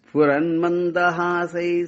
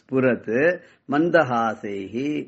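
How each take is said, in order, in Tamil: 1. சொற்கள் இடைவெளி இல்லாம சேர்ந்து சொல்லப்படுது. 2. சொற்கள் இடைவெளி விட்டு தனித்தனியா சொல்லப்படுது. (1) "அப்படி சேர்த்து படிக்கச்சு கொஞ்சம் தணறத்தான் செய்யும்" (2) "கொஞ்சம் நாமளும் பிரிச்சு படிச்சாதான் புரியும்"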